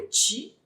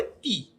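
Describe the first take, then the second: First: "ti" with a hard T, no hiss; plain hard T. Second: "ti" said as "tchi", pitched high; palatal tchi. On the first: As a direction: say "ti" with a clean stop T. ("ti" com T seco, sem chiado) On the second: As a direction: end on "ti" as a hissing "tchi". ("ti" dito como "tchi", chiado e agudo) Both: Shown as a demonstration. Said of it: "não existe uma sequência lógica de T".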